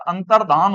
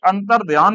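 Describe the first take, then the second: First: अंतर्धान said plainly with धा and no य; correct pronunciation. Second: अंतर्ध्यान said with a clear ध्या, the form to avoid; wrong pronunciation. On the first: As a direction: stress the correct अंतर्धान, clean धा sound. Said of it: "अंतर्धान होता है". (अंतर्धान को सही, साफ़ धा के साथ बोलें) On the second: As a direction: say अंतर्ध्यान with the extra य sound, as the wrong version. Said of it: "ये अंतर्ध्यान नहीं होता". (अंतर्ध्यान को ध्या के साथ गलत उच्चारण में बोलें) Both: Shown as a demonstration.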